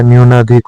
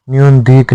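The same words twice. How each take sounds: First: न्यूनाधिक said joined as "nyoona-dhik"; the correct form न्यूनाधिक, "nyoona-dhik"; correct pronunciation. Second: न्यून धीक said as split words, "nyun dheek"; the incorrect form न्यून धीक, "nyun dheek"; wrong pronunciation. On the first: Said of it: "न्यूनाधिक होता है". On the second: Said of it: "न्यून धीक नहीं होता". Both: Shown as a demonstration.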